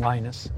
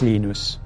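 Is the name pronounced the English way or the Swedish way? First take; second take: English; Swedish. First: The name is said with an English pronunciation. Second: The name is said with a Swedish pronunciation. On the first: This is the name as adapted for English speakers. "When I moved to the U.S. and started speaking English, I started saying" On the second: This is the name as used in the home language. "So if you speak Swedish to me"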